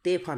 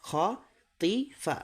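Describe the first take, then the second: First: তেফা with "te" in the middle; wrong te vowel. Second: খতিফা very slowly, broken into three syllables; higher, drawn-out খ-তি-ফা with long "ee"; correct syllable-by-syllable reading. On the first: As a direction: show the mistaken e vowel in তেফা. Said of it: "তেফা না". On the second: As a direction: model খতিফা slowly with a clear "tee". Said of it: "তো এখানে আছে খতিফা". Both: Shown as a demonstration.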